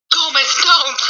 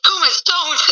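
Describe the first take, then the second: First: A hint of Morticia, higher; lightly voiced calm warning; Morticia quote. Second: Smooth calm warning, higher; lightly voiced Morticia; Morticia's calm voice. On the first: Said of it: "She's like". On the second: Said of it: "in her smooth but calm voice".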